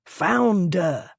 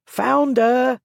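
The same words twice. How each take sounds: First: Chant. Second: Higher, loud mocking cry; crowd cry. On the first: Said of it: "the crowd's chant". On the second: Crowd jeering at the lord in his carriage, loud cry. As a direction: call it out to the mob with glee. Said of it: "took up the cry with variations". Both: A narrator's reading.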